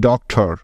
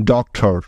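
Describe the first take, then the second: No difference in how they are said.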